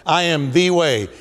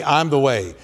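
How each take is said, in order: First: "the" said long as "thee", stressed; emphatic THE. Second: Said in the usual way. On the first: Acted. Preacher quotes Jesus answering Thomas, emphatic "the" said as "thee". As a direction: lean hard on "the", pronounced "thee". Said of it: "he uses the emphatic".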